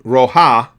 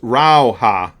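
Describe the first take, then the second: First: The first syllable has a plain 'o' vowel. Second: The first syllable has an 'au' glide vowel. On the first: This is the version heard most often before. "Roja was how I had heard it pronounced most often" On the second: This is the version the pronunciation site gives. "So it's rauha"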